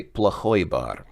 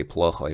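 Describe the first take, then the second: First: Плохой бар with плохой stressed on its ending, pla-KHOY; end-stressed плохой, first vowel reduced; stress on second syllable. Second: Плохой said as PLO-khoy, first syllable stressed; плохой with a mistaken early stress. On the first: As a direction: land on the "ой" of плохой before бар. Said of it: "he did say плохой бар". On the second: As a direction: put the weight on "пло" in плохой, ending unstressed. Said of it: "I reflexively just instinctively say". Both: Shown as a demonstration.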